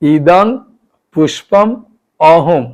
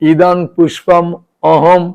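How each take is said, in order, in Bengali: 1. বাক্যটি ধীরে ধীরে, শব্দ ধরে ধরে বলা হয়েছে। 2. বাক্যটি স্বাভাবিক গতিতে বলা হয়েছে।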